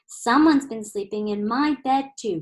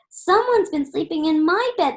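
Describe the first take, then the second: First: It is said in Mama Bear's low growl. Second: It is said in Baby Bear's high squeak.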